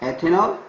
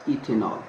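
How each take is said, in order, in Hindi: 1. पहला स्वर 'eh' जैसा सुनाई देता है। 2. पहला स्वर 'ih' जैसा सुनाई देता है। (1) "इसको एथेनॉल भी लिखते हैं" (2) "या इसको इथेनॉल भी बोल देते हैं"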